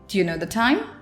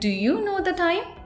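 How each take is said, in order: First: "Do you" blends into one short sound. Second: Each word of "do you" is said in full. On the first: The speaker calls it right. "instead I will say it like this" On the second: The speaker calls it wrong. "I won't say it like this"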